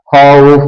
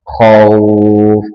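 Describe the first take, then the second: First: The final vowel is cut short. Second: The final vowel is held long. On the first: The speaker calls it wrong. "bukan khauf, bukan begitu" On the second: The speaker calls it right. "khaufnya juga dibaca panjang"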